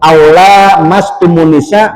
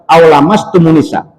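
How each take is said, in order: First: The vowel after 'l' is drawn out long. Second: The vowel after 'l' is kept short. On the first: "pakai matobi" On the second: "boleh dibaca langsung"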